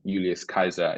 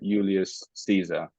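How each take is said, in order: First: The second name begins with a 'k' sound. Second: The second name begins with an 's' sound.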